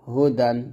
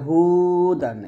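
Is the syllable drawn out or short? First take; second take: short; drawn out. First: The syllables are short and joined together. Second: The syllables are drawn out and stretched apart. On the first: The speaker calls it right. "পড়তে হবে হা পেশ হু, দাল দুই জবর দান, হুদান এরকম" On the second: The speaker calls it wrong. "এরকম ভাবে টেনে পড়তে পারবো না"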